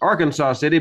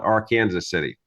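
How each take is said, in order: First: Arkansas has its common, widespread pronunciation. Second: Arkansas has its local Kansas pronunciation. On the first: "which most people would pr- pronounce as Arkansas City" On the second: "but in Kansas we prefer to call it Arkansas City"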